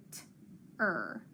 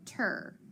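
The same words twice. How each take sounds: First: T and ER said separately with a gap; sounded out. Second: Said in the usual way. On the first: Shown as a demonstration. Teacher showing pupils how to blend, sounded out. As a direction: break "t-er" into two sounds, pausing between. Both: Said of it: "hook 'em together".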